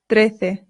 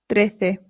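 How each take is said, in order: Both takes have the same delivery.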